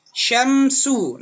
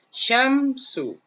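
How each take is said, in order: First: "Syamsu" loud and high, sh then s clearly apart; model word. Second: "Syamsu" high, sh and s kept distinct; model word. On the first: Teacher models Syamsu for pupils, sh versus s. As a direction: say "Syamsu" with a full sh and a crisp s. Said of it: "di sini ada contoh". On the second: Teacher repeats Syamsu for pupils, sh versus s. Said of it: "udah berbeda nih antara syam sama su". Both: Shown as a demonstration.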